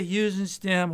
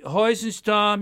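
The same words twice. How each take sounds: First: Heusenstam said HYOO-zen-stam, English style; anglicized pronunciation. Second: Heusenstam said HOY-zen-stahm, German style; German name pronunciation. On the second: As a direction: give Heusenstam the German HOY sound at the start. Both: Shown as a demonstration. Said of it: "you could say Heusenstam".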